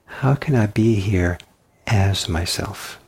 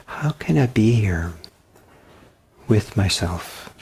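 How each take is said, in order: First: As myself slowed, set against with; stress on as. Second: With myself slowed and leaned on; teacher stresses with in How can I be here with myself. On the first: Teacher contrasts with by slowly stressing as. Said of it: "in contrast to". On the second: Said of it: "what I want to do is emphasize the word with". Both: Shown as a demonstration.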